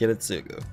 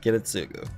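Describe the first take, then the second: First: The name sounds like Ki-ri-tsu-gu. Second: The name sounds like Ki-ri-tsu-gu.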